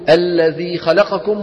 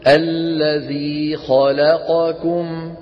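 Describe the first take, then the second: First: The vowels of the last word are rushed together. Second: The vowels of the last word are evenly timed. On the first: The speaker calls it wrong. "نخطفها خطفا هكذا، ما يصح" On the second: The speaker calls it right. "لابد أن نسوي بين أزمنة الحروف"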